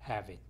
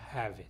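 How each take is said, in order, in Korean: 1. v 소리는 뒤에 오는 모음과 이어서 발음됩니다. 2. 두 단어는 이어지지 않고 따로 발음됩니다. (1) "이런 식으로 발음이 되는 것이고요" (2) "이게 아니라"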